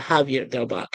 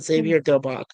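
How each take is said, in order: First: The name is said with a Spanish pronunciation. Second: The name is said with an English pronunciation.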